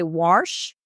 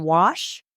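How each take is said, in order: First: "warsh" with an added R before the sh; Southern warsh. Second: Said in the usual way. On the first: Shown as a demonstration. Lawyer showing the Southern way to say wash. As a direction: slides an R into "warsh". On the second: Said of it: "rather than".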